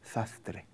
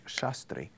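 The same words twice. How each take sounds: First: The s sounds are lisped like th. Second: The s sounds are plain hissing s. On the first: The speaker calls it wrong. "yo dijera sastre. ... ese defecto del habla" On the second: The speaker calls it right. "en vez de decir sastre"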